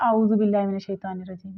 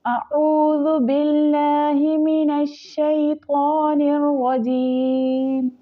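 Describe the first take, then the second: First: आऊज़ु rushed with a plain Hindi आ and no throat sound; wrong pronunciation. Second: अऊज़ु opened with the ain from the throat, slow and chanted; correct tajweed. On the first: Teacher showing students the common mistake, rushed plain आऊज़ु. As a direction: rattle off आऊज़ु बिल्लाहि as a quick careless mumble. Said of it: "नहीं". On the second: Teacher giving the correct reading after the mistake, slow throaty chant. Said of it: "आइन की आवाज़ हलक से निकलेगी". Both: Shown as a demonstration.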